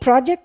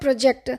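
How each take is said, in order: First: The first syllable is said with an open 'a'. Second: The first syllable is said with an 'o' sound. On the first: The speaker calls it right. "project is the work we do" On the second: The speaker calls it wrong. "అది చాలా wrong pronunciation"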